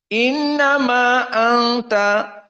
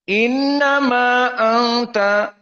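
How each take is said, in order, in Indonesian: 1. Huruf vokal akhir dari innama hanya dibaca sebentar. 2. Huruf vokal akhir dari innama hanya dibaca sebentar.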